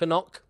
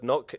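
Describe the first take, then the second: First: The word begins with a sounded K before N. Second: The word begins with a plain N sound.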